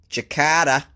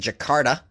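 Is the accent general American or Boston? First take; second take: Boston; general American. First: It is said in a Boston accent. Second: It is said in a general American accent.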